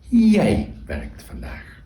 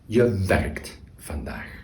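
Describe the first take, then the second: First: The stress falls on the pronoun jij. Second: The stress falls on the verb werkt. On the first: The focus is on who does the action. "in the second sentence, we put the emphasis on the subject" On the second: The focus is on the action being done. "in the first one, the emphasis lies on the verb, on the action"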